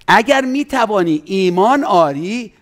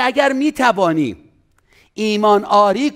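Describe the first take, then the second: First: اگر lifted and held, whole phrase slowed; slow emphatic recitation. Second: اگر drawn out high and slow; stress on اگر. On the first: Pastor repeating the verse to stress it, slow and weighty. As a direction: recite it slowly, each word weighted. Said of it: "مؤمن را". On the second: Pastor stressing the word اگر to the congregation, slow and high. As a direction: lean hard on اگر, then let it fall. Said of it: "این فعل عزیزان". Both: Shown as a demonstration.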